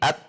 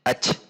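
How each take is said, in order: First: The final t is held, then lightly released. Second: The final consonant hisses like a ch sound. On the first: The speaker calls it right. "Tetapi at, tertahan, baru ada udara mengalir" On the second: The speaker calls it wrong. "jangan sampai dibaca ac"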